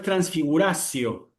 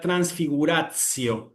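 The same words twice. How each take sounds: First: The t before the ending sounds like an s. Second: The t before the ending sounds like ts. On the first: The speaker calls it wrong. "Cuidado que no es transfiguratio, no es la C" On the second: The speaker calls it right. "En la pronunciación eclesiástica ... es una T S"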